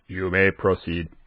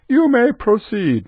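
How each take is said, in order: First: It is said in a flat, mechanical robot voice. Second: It is said in a normal speaking voice. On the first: The speaker calls it right. "I have to have a robot voice" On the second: The speaker calls it wrong. "No, it never says it like that"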